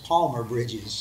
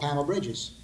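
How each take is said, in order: First: The first word is said with an L sound. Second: The first word is said without an L sound. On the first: This is the name's proper form. The speaker calls it right. "It's not, it's Palmer Bridges" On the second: This is how the local speakers said the name. The speaker calls it wrong. "instead of saying palm, they said Pam"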